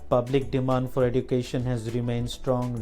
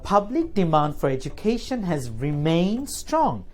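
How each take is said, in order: First: The pitch stays flat with no stress. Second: The pitch moves up and down with stress. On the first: The reader sounds unhappy and bored. The speaker calls it wrong. "This is called flat tone" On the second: The reader conveys the meaning of the text. The speaker calls it right. "here's an example with intonation and stress"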